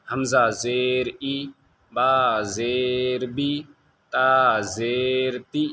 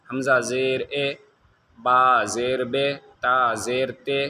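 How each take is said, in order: First: "बी" and "ती" stretched very slowly on a clear ee; maruf long ee. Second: "बे" and "ते" slow, vowel shifted to ay; wrong version: "ता ज़ेर ते" with ay not ee; majhul ay sound. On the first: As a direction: model reading: "बा ज़ेर बी" very slow, pure ee. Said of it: "ये मारूफ हुआ". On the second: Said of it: "मजहूल हो रहा है". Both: Shown as a demonstration.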